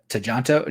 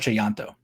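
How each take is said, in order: First: The middle consonant is a J sound. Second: The middle consonant is a Y sound. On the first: The speaker calls it wrong. "I was saying uh Chajanto, because I took account of the, the J's" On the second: The speaker calls it right. "but it is uh Timo Chayanto"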